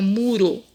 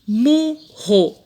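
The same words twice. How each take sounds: First: MURO with a light tongue-tap R; single tapped R. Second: MURRO split in two, with an h-like R; strong double R. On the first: ("muro" com R brando, de um toque só) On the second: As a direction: say "murro" in beats, "mu, ho". ("murro" separado, com R forte) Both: Shown as a demonstration. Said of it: "Tira um R".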